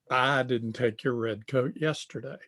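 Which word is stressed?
I. The stress falls on the word I. Someone else took it. "I didn't take it, but somebody else did"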